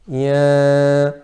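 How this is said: The vowel is nasalized through the nose. The speaker calls it wrong. "If there is a ghunnah"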